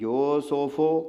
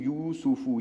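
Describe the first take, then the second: First: The long vowels are 'oh' sounds. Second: The long vowels are pure 'oo' sounds. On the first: The speaker calls it wrong. "तो ये मजहूल होगा, ममनू है, गलत है" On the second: The speaker calls it right. "ये है मारूफ"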